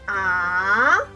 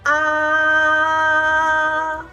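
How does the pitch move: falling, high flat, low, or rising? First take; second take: rising; high flat. First: The pitch rises and is held long. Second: The pitch stays high, flat and long. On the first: "We say this up and long" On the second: "go up high. Keep flat and long"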